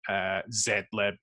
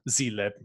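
First: It is pronounced the non-American way. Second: It is pronounced the American way.

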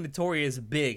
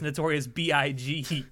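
First: BIG is said as a single word. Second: BIG is spelled out letter by letter. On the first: The speaker calls it wrong. "They kept saying Notorious Big" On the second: The speaker calls it right. "it's supposed to be pronounced Notorious B-I-G"

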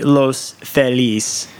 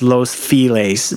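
First: The name is pronounced the Spanish way. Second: The name is pronounced the English way. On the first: "Proper Spanish would be" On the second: "everyone out here says"

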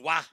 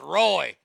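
First: The name is said in French, starting with W. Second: The name is said in English, starting with R. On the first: This is the French reading of the name. The speaker calls it wrong. "So he took the French pronunciation, which is Wah" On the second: This is the American reading of the name. The speaker calls it right. "But not in America, it ain't ... R-O-Y is Roy"

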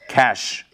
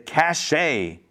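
First: The word is said with one syllable. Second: The word is said with two syllables. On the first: The speaker calls it right. "in this case, it's pronounced cash" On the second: The speaker calls it wrong. "is that how to pronounce it?"

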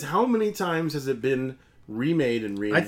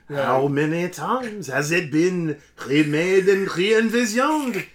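First: It is read in a plain, ordinary accent. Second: It is read in a put-on French accent.

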